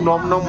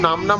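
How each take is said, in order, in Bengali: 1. স্বরধ্বনিটি একটি গোলাকার 'o' ধ্বনি। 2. স্বরধ্বনিটি একটি খোলা 'aa' ধ্বনি। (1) "কেউ নম নম বলে" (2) "কেউ নাম নাম বলে"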